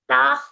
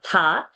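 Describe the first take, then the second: First: The breath comes out after the vowel. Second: The breath comes out with the first consonant. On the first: The speaker calls it right. "It's ta, ta first and then ha" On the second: The speaker calls it wrong. "It's not tha"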